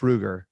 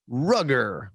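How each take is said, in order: First: The name is said with its standard pronunciation. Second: The name is said with an altered pronunciation. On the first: The speaker calls it right. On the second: The speaker calls it wrong.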